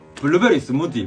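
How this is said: It is said in a strong Gyeongsang accent. The speaker calls it wrong. "사투리가 진짜 심해요"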